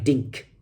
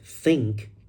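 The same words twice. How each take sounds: First: The word begins with a t sound. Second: The word begins with a th sound. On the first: The speaker calls it wrong. "There's T" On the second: The speaker calls it right. "But the correct sound is th"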